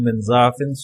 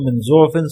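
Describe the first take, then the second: First: The first vowel of the word is 'a'. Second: The first vowel of the word is 'u'. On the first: The speaker calls it wrong. "ज़ाफ़ पर रद्द फरमाते हुए" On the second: The speaker calls it right. "ज़ुअफ़ पढ़ो ज़म्मा के साथ"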